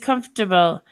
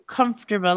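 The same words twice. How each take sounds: First: The word is said without an R sound. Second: The word is said with an R sound. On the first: "They don't pronounce the R" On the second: "I do"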